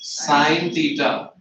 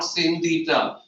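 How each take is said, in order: First: The first word has a long 'eye' vowel. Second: The first word has a short 'i' vowel. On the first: The speaker calls it right. "How will you read this one? Sine theta" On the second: The speaker calls it wrong. "not sin theta"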